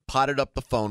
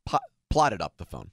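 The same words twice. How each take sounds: First: "potted" said with no l, a slurred slip for "plotted"; "potted up the phone" tripped over, the l dropped; slip of the tongue. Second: "plotted" restarted and said clearly with the l; fixing the slip, "plotted" spelled out in sound; careful correction. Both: Real, not acted. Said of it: "Did what to the phone?".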